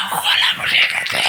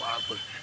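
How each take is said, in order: First: Slow rasping whisper; voiceless croak. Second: Voiceless croak. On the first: Retold or imitated. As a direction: barely get the words out. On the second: Shown as a demonstration. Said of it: "কথা বলে না".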